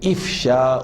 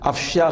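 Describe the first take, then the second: First: The first vowel is an 'i' sound. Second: The first vowel is an 'a' sound. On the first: The speaker calls it right. "इफ़शा उन है" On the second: The speaker calls it wrong. "अफ़शा गलत लफ्ज़ है"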